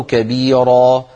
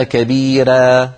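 First: Slow "كبيرة" with dark r and backed a; heavy rā. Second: Slow "كبيرة" with thin r and fronted a; light rā. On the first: Teacher contrasting readings, "كبيرة" with heavy rā. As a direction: thicken the r of "كبيرة" toward ro. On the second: Teacher contrasting readings, "كبيرة" with thinned rā. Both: Shown as a demonstration. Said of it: "التفخيم والترقيق".

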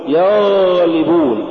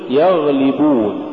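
First: يغلبون with a long droning غ; overdone ghayn. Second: Said in the usual way. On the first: Shown as a demonstration. Teacher warning against exaggeration, overlong غ in يغلبون. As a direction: drag out the غ in يغلبون. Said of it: "ولا تقل". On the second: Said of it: "قل يغلبون".

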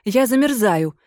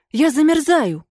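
First: Said in the usual way. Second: Desperate cry. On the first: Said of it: "пожаловалась дама". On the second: A narrator's reading. Ghost lady crying to her host that she is freezing, desperate. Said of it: "запричитало привидение".

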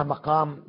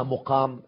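First: مقام pronounced maqam, with "a" after the mim; fatha on the mim. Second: مقام pronounced muqam, with "u" after the mim; damma on the mim. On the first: Lecturer explains the first reading to viewers, مقام as maqam. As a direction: say مقام with an open "ma" at the start. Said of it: "تقرأ مقام بالفتح". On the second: Lecturer explains the second reading to viewers, مقام as muqam. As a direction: say مقام with a rounded "mu" at the start. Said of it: "ومقام بضم الميم". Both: Shown as a demonstration.

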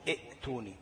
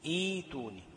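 First: ائتوني with the hamza sounded, soft; the wrong way to say ائتوني; wrong reading. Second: ايتوني begins with a long ee, hamza dropped; correct reading. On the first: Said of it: "ما بقولش". (النطق الخطأ لـ ائتوني) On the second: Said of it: "بقول إيه؟". (النطق الصحيح ايتوني بياء مد) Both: Shown as a demonstration.

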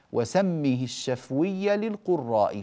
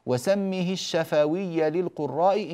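First: الشفوي with a silent fa, shafwia, so the meter holds; slow verse recital of الشفوي as shafwia; metered reading. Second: الشفوي with an open fa, shafawi, breaking the meter; slow verse recital of الشفوي as shafawia; wrong vowelled reading. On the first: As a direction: chant the line keeping the fa of الشفوي unvoweled. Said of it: "فسكنه للضرورة الشعرية". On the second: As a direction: chant the line with الشفوي fully vowelled. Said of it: "انكسر البيت". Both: Shown as a demonstration.

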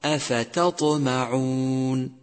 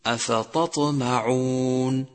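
First: Slow أفتطمعون with a thin, light ت before ط; correct light taa. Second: Slow أفتطمعون with ت thickened towards ط; wrong heavy taa. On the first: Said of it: "والصواب". (ترقيق التاء في أفتطمعون) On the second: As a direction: recite أفتطمعون, letting ت turn heavy like ط. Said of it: "حتى لا تصير طاء". (تفخيم التاء خطأً في أفتطمعون) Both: Shown as a demonstration.

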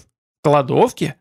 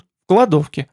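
First: Drawn-out, disbelieving question; stunned, slow repeat of КЛАДОВКЕ as a question; incredulous echo. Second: Said in the usual way. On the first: A narrator's reading. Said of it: "скинулся владыка Хоргов".

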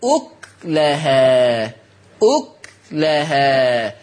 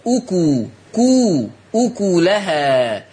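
First: "أكلها" as uk-lahā, k closed, very slow; سكون الكاف. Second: "أكلها" built up as uku, ku, ukulahā; ضم الكاف. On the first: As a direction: stop on the k in "أكلها", then long lahā. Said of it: "فيقرأ بسكون الكاف". ("أكلها" بسكون الكاف على قراءة ورش) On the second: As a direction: stress the ku in slow "أكلها". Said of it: "تقرأ بضم الكاف". ("أكلها" بضم الكاف، مقطعة ثم كاملة) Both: Shown as a demonstration.

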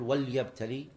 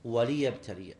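First: وليبتلي as "wal-yabtali", lam closing the syllable; wrong example, وليبتلي with vowelless lam; wrong silent lam. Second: وليبتلي as "wa-li-yabtaliya", falling at the end; firm correction, وليبتلي with i after the lam; correct kasra. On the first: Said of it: "ما تقول". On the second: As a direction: give the lam in وليبتلي its own "li". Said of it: "بل تقول". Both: Shown as a demonstration.

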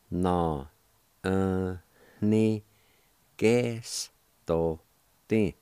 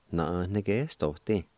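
First: Na, uh, ni, gas, to, ti, each syllable on its own. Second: Said in the usual way. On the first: Shown as a demonstration. Teacher breaking a word down for learners, syllable by syllable. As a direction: sound out "Na, uh, ni, gas, to, ti" with gaps between syllables. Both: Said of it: "it's pronounced like this".

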